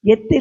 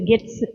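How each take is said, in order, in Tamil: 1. இந்தச் சொல்லில் நிலையான தமிழின் 'th' ஒலி உள்ளது. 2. இந்தச் சொல்லில் சென்னை பாணியிலான 'ts' ஒலி உள்ளது. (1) "அது கெத்து இல்லை" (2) "சென்னை தமிழ்ல சொன்னா கெட்ஸு"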